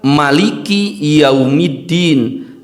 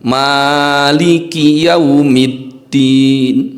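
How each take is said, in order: First: The first vowel is short, one beat. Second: The first vowel is held long, two beats. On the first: "Yang kedua tidak memakai alif" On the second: "Yang pertama ditambahkan alif, berarti kita baca menjadi mad asli atau mad tabi'i, dibaca dua harakat"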